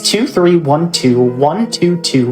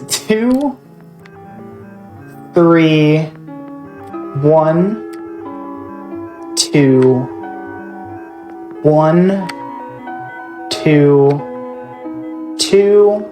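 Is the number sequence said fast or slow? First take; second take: fast; slow. First: The numbers are said quickly, run together. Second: The numbers are said slowly, one by one.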